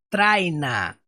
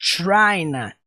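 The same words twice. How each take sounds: First: It begins with a plain, light t sound. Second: It begins with a strong, ch-like t sound. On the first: The speaker calls it wrong. "Não é traina" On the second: The speaker calls it right. "Porque o som do T é mais forte. É traina"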